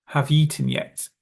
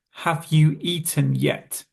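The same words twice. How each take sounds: First: "you" and "eaten" run into "yeaten"; connected "Have you eaten yet" like "hav-yeaten yet"; merged words. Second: "Have you eaten yet" slowly, word by word; "you" and "eaten" kept separate; careful unmerged form. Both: Shown as a demonstration. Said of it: "we would merge together you and eaten".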